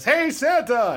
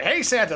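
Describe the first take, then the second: First: Louder, higher crowd call; crowd shouting back. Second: Sung line. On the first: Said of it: "The whole crowd goes". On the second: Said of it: "he goes like". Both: Retold or imitated.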